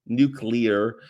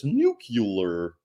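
First: Said in the usual way. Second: Nuclear said as nu-cu-lar; "nuclear" as nook-yoo-ler, Homer style; Homer Simpson. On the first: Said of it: "final correct take". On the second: Retold or imitated. Vlogger quoting Homer, saying "nuclear" as nook-yoo-ler. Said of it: "as Homer Simpson says".

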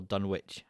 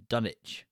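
First: "Dunwich" said as Dun-witch, w sounded; Dun-witch pronunciation. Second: "Dunwich" said as Dunnich, no w; Dunnich pronunciation. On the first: Co-host offers the other pronunciation, "Dunwich" as Dun-witch. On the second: Co-host offers ways to pronounce the title, "Dunwich" as Dunnich. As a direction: say "Dunwich" with a silent w, DUN-itch. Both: Shown as a demonstration. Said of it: "however you want to pronounce that".

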